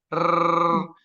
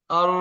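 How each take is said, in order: First: The tongue vibrates in a rolled trill. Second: The tongue stays still without any trill. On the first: The speaker calls it wrong. "Contohnya yang yang salah ya" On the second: The speaker calls it right. "Yang benar seperti ini"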